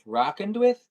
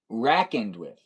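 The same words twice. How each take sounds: First: "Reckoned" said as "rockened", rising high; questioned pronunciation. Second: "Reckoned" with a short A, RACK-end, falling; contrasting pronunciation. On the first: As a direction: query "Reckoned" with an AH vowel, ROCK-end. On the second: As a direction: say "Reckoned" as "rackened", lower. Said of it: "You like to use". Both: Shown as a demonstration.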